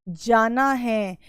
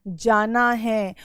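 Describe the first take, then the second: Both takes have the same delivery.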